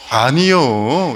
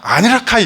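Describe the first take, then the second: First: It is said in a Jeolla regional accent. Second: It is said in an eastern regional accent. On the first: "전라도에서는 아니야를 아니요 이렇게 얘기하거든요" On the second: "동쪽에서는 아니라 아니라 아니라 카이 이렇게 얘기하잖아요"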